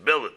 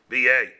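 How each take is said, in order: First: The word is pronounced the English way. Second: The word is pronounced the French way. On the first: "in English it's billet" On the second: "It's really a French word b'yay"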